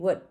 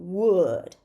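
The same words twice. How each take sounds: First: The word is said quickly with a reduced vowel. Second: The word is said fully with a clear vowel. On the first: "the weak form is going to be" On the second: "Would is the strong form"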